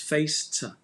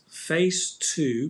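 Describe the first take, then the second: First: The word 'to' is reduced and linked. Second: The word 'to' is said fully and clearly.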